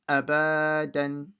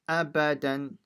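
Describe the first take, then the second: First: Some vowels are stretched out long. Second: All vowels are kept short. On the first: The speaker calls it wrong. "or don't say abadan" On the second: The speaker calls it right. "so it's abadan"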